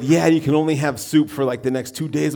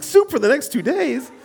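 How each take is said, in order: First: Said in the usual way. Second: "Soup for the next two days?" echoed high and aghast; incredulous repeat. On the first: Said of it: "They said". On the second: Retold or imitated. Pastor repeating the nurse's soup rule, aghast. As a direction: throw "Soup" back in high disbelief. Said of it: "I'm like".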